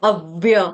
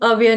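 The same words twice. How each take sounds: First: The first syllable is stressed, with a doubled v. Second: The first syllable is unstressed, with a plain v. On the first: The speaker calls it right. "आधे व का लेना है" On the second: The speaker calls it wrong. "अव्य नहीं, अव्य बोलने से आघात नहीं आएगा"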